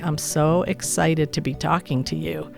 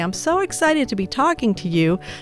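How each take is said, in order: First: It is said in an unexcited way. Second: It is said in an excited way.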